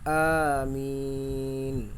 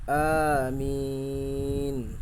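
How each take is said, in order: No difference in how they are said.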